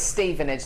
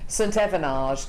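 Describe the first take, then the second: First: The name is said in an ordinary, plain way. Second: The name is said in an affected, posh way. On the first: It is the town's usual name. The speaker calls it right. "it's Stevenage, love" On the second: It is meant to make the town sound grander. The speaker calls it wrong. "to make it sound posher"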